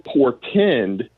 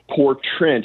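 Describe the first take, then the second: First: The word is said as portend. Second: The word is said as poor trend. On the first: The speaker calls it right. "instead of saying portend" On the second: The speaker calls it wrong. "he started saying poor trend. He got the word wrong"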